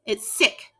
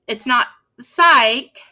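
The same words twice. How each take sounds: First: "sick" with a short I, said quietly; teacher gives the correct short-I "sick" after the wrong one. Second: "psych" slowed with a long I, the mistaken reading; teacher demonstrates the wrong long-I reading "psych", slowly. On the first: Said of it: "That C K makes that I go eh". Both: Shown as a demonstration.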